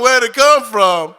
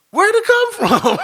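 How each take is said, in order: First: Louder, teasing repeat of the question; mock echo. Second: High, loud, laughing disbelief; baffled question. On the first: God mocking the owner's silly question, teasing echo. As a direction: throw his own question back at him. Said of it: "Did you miss the birds and the bees". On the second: Retold or imitated. Owner to God about the new foal, stunned high-pitched question. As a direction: blurt it out, totally puzzled. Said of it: "something really stupid".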